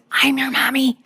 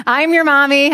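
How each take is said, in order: First: Whispered urgently under the breath. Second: Insistent mom. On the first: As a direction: hiss it so no one else hears. Worried aside about social services. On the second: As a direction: claim your child in front of everyone. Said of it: "And so I'm like". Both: Retold or imitated.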